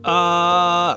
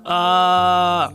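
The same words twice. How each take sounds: First: It sounds strained, with too little airflow. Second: The same.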